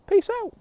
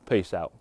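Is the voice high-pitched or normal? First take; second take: high-pitched; normal. First: It is said in a high-pitched voice. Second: It is said in a normal voice.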